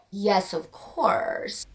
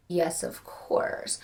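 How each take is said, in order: First: Slow, softer knowing yes; slow sly admission. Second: Whispered, slow guilty yes; whispered confession. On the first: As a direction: drawl it like a guilty confession. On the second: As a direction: whisper it like a secret. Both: Real, not acted. Answering own smut question.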